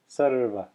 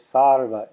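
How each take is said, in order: First: The first vowel is a short uh. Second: The first vowel is a long ah. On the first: The speaker calls it right. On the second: The speaker calls it wrong. "I hear many beginning chanters say sarva, and it's not sarva"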